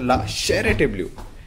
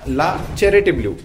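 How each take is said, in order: First: The name is said with a French pronunciation. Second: The name is said with an Indian pronunciation. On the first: This is how people in France say it. "in the France" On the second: This is how people in India say it. "In India"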